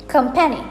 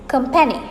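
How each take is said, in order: Both takes have the same delivery.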